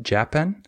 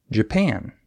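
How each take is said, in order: First: Japan said wrongly as JA-pan, first syllable stressed. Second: Japan said as ja-PAN, second syllable stressed. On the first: Teacher showing learners the error, Japan stressed on first syllable. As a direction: hit JA in Japan, reduce the rest. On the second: Teacher correcting the learners' error, Japan stressed on second syllable. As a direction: reduce the start, hit PAN in Japan. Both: Shown as a demonstration. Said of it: "You just stress the other syllable".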